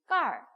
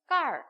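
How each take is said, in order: No difference in how they are said.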